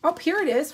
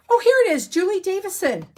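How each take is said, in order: First: Said in the usual way. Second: High, loud burst of delight; suddenly thrilled to find it; excited find. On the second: Real, not acted. Crafter finds the designer's name in her notes, excited.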